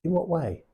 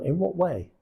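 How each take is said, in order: First: A curious, higher "in what way?"; gently inquisitive. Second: A curious, higher "in what way?". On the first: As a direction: ask it with interest. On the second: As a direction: sound simply interested, not pushy. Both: Shown as a demonstration. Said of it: "That's just curious".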